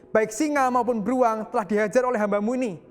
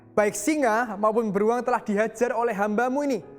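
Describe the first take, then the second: The two takes are said the same way.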